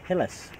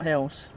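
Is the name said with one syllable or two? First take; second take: two; one. First: The name is said as two syllables. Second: The name is said as one syllable. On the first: The speaker calls it right. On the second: The speaker calls it wrong. "It's not Hills"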